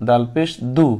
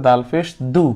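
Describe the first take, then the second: The two takes are said the same way.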